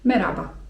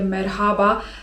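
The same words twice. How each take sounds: First: The h in the middle is left silent. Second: The h in the middle is clearly pronounced. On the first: It is the everyday way of saying it. "na co dzień raczej wymawiamy to w ten sposób, żeby to H było nieme" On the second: It sounds formal, like a news presenter. "takie merhaba to raczej jest y, gdzieś tam używane, ... w telewizji"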